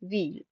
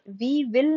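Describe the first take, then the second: First: It is said as one short syllable. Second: It is said as two full words. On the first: The speaker calls it right. "जैसे व्हील पढ़ते हैं ना" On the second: The speaker calls it wrong. "वी विल नहीं पढ़ेंगे"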